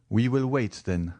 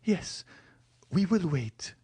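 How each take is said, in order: First: A lightly voiced young man, near the reader's own voice; calm resolve as Morrel; Morrel's voice. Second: Put-on higher, young woman reviving with hope; Valentine's voice. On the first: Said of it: "said Morrel". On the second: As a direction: answer him, brightening with hope. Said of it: "replied Valentine". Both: A narrator's reading.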